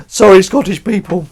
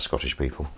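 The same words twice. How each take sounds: First: High, hammed-up shouted apology; mock loud apology. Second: Said in the usual way. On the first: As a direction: call the apology out to a whole nation. Repeats apology, loudly hammed up.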